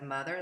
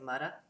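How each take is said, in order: First: It is said with a th sound and final r. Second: It is said with a d sound, r dropped.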